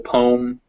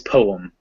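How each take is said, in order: First: The word is said as one syllable. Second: The word is said as two syllables. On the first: This is a regional Southern pronunciation. "just the one syllable poem" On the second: This is the standard pronunciation. "in standard English, it's poem. It's like poet"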